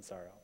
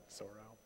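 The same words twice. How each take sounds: First: "sorrow" quietly, with an "ah" first vowel; "sorrow" opening on an unrounded "ah"; corrected vowel in sorrow. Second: "sorrow" quietly, with an "aw" first vowel; "sorrow" opening on a rounded "or"; odd vowel in sorrow. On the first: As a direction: say "sorrow" softly as SAR-oh. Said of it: "I mean sorrow". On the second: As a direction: say "sorrow" softly as SORE-oh. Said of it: "I said that like that". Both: Shown as a demonstration.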